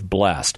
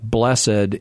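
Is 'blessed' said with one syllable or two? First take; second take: one; two. First: The word is said with one syllable. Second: The word is said with two syllables. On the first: It is the modern everyday form. "instead of" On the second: It is the older usage kept by religion. "religion is conservative in the way it uses languages"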